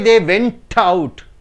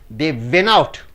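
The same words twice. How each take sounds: First: The T in 'went' is clearly pronounced. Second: The T in 'went' is dropped. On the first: The speaker calls it wrong. "You don't say" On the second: The speaker calls it right. "You say"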